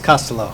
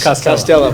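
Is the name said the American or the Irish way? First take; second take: Irish; American. First: The name is said with an Irish pronunciation. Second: The name is said with an American pronunciation. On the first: "The Irish pronunciation is" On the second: "the American, is"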